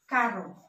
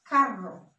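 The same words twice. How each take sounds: First: "carro" with one light tapped R; single-R pronunciation. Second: "carro" with a rolled double R; double-R pronunciation. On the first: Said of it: "it pronounced differently". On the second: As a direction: trill the R in "carro". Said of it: "when you see double R". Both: Shown as a demonstration.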